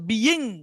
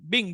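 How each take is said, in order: First: The word is said with two separate syllables. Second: The word is said as a single syllable. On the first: The speaker calls it wrong. "মানে মূল উচ্চারণটা হওয়ার কথা বিইং, কিন্তু বিইং না হবে" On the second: The speaker calls it right. "এটা উচ্চারণটা হবে বিং"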